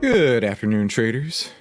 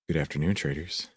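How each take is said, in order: First: It is said in a normal voice. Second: It is said in a sultry voice.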